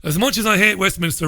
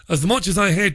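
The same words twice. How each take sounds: First: Quick, poor mock Scottish accent; lightly put-on Scottish accent, hurried; bad Scottish accent. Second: A weak attempt at a Scottish accent; lightly put-on Scottish accent; bad Scottish accent. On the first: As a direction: rattle off the tweet in a half-hearted Scottish accent. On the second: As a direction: read the tweet in a poor mock Scottish accent. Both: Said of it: "that's the worst Scottish accent you've ever heard".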